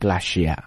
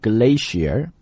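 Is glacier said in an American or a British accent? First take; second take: British; American. First: It is said with a British accent. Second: It is said with an American accent. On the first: "British accent glacier" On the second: "美式英语读 glacier"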